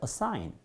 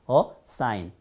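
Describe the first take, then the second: First: The two syllables flow together without a break. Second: The two syllables are split with a break. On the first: The speaker calls it right. "끊어주지 않고요. 그냥 여기서 어허, 어허 이런 느낌으로 들어갑니다" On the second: The speaker calls it wrong. "음절이 나뉜다고 그래가지고 ... assign 하지 않고요"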